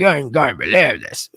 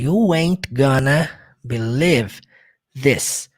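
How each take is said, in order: First: It is drawled and slurred, mouth half twisted. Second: It is spoken slowly, each word clearly separated. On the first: "aquela arrastada... com a boca meio torta" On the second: "Falando pausadamente"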